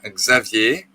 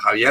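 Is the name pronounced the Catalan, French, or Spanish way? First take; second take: French; Spanish. First: The name is said with a French pronunciation. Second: The name is said with a Spanish pronunciation. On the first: "en francés mi nombre se pronuncia Xavier" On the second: "en español se pronuncia Javier"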